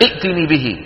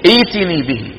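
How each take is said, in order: First: A second glottal stop is pronounced after the first vowel. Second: The first vowel is lengthened with no second glottal stop. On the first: The speaker calls it wrong. "بعض التمثيليات التي بالفصيح بيقول لك ائتني به، ما بصير يقول ائتني" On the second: The speaker calls it right. "شو لازم يقول؟ ائتني به"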